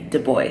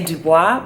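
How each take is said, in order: First: The name is pronounced the English way. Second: The name is pronounced the French way. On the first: The speaker calls it right. "He preferred to be called W E B Du Bois" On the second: The speaker calls it wrong. "which is of course a French last name"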